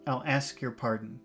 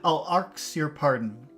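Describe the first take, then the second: First: The word ask has no R sound. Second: The word ask has an inserted R sound.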